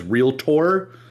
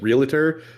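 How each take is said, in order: First: The last syllable is stressed with a full 'tor' vowel. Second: The last syllable is reduced, sounding like 'ter'. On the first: It is the careful, advertising way of saying it. "they always really heavily emphasize realtor" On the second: It is the everyday way people say it. "say it as realtor that they think it either ends with an E"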